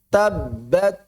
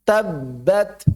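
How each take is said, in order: Both takes have the same delivery.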